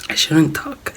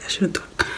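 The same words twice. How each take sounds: First: Said in the usual way. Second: Whispered to save the voice. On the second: Real, not acted. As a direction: drop to a breathy whisper.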